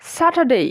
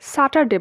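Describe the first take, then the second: First: The last syllable ends with an 'ei' glide. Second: The last syllable ends in a plain 'e' vowel. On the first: The speaker calls it right. "সঠিক এবং শুদ্ধ উচ্চারণ হচ্ছে স্যাটারডে" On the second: The speaker calls it wrong. "আমরা normally এটাকে স্যাটারডে বলি"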